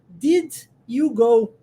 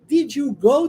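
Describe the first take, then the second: First: Did and you are split by a pause. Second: Did and you run together without a break. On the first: The speaker calls it wrong. "olha como é que a gente quebra a frase... Eu acabo criando uma pausa" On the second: The speaker calls it right. "vou juntar um no, no outro e vou dizer did you"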